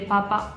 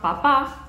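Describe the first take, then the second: First: The stress is on the first syllable. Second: The stress is on the second syllable. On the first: It means a potato. "acento en la primera sílaba" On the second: It means a father. "tilde en la segunda pa"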